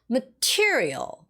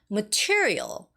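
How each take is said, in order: First: The stress is on the second syllable. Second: The stress is on the second syllable.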